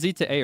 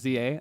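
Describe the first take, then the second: First: The word "to" is spoken between the letters. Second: The two letters are spoken with nothing between. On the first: The speaker calls it right. "It's pronounced Z to A" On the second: The speaker calls it wrong. "Not Z A"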